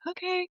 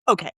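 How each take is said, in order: First: It sounds surrendering. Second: It sounds angry.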